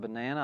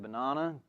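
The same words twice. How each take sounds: First: It has an American pronunciation. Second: It has an Australian pronunciation.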